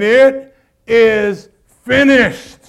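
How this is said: It is said with power and strength.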